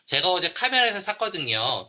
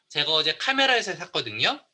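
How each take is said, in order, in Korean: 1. 문장 끝에서 목소리가 내려가요. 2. 문장 끝에서 목소리가 올라가요. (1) "떨어지면 그냥 이유예요" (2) "그러면서 억양이 바뀌죠"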